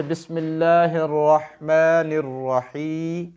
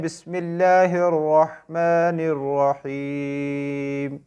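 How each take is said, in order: First: Slow, melodic Quran recitation; recited Arabic. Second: Very slow, drawn-out recitation. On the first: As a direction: recite it slowly with tajweed. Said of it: "असल में इसकी writing क्या है". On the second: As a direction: recite बिस्मिल्लाहिर्रहमानिर्रहीम ending on a stopped rahim. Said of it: "में को हम नहीं पढ़ते". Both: Shown as a demonstration.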